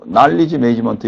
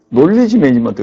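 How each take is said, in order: First: The first vowel of knowledge sounds like ah. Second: The first vowel of knowledge sounds like oh. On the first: This is how it is said in America. "미국에서는 영어를 할 때 난리지라고 해요" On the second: This is how it is said in Australia. "우리 아들이 호주에 유학 갔더니 논리지 매니지먼트"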